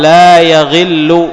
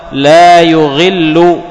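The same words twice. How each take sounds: First: لا يغل with a on the ya, "la yaghillu"; fatha on the ya. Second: لا يغل with u on the ya, "la yughillu"; damma on the ya. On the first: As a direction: say لا يغل as "ya-ghillu". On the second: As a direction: say لا يغل as "yu-ghillu", drawn out slowly. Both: Shown as a demonstration. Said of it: "ضم الياء وبفتحها".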